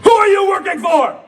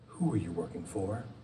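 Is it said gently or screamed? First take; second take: screamed; gently. First: It is screamed loudly. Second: It is said gently and quietly.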